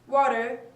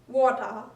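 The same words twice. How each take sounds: First: It is said in an American accent. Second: It is said in a British accent. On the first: "Water in America" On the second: "water in British English"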